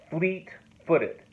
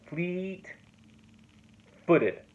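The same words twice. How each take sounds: First: "Fleet-footed" with a strong stress on "Fleet" and two light syllables after; dactyl demo. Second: "Fleet-footed" drawn out, "Fleet" held long and higher; slower second take of the dactyl; stretched dactyl. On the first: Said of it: "is a dactyl". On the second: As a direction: linger on "Fleet", then tap "footed". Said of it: "That's a dactyl". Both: Shown as a demonstration.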